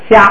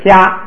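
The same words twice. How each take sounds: First: The vowel is short with no extra ending. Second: The vowel is held longer with no extra ending. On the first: "原来是虾" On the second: "时间长一点"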